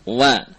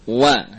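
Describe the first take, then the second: No difference in how they are said.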